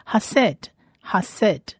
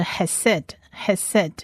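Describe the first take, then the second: First: Hased said "ha-SED", open a first; a in first syllable. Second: Hesed said "he-SED", e in both syllables; base form. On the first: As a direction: say hased with ha at the start. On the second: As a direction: slowly say hesed with he at the start. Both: Shown as a demonstration. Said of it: "那它的原型是hesed".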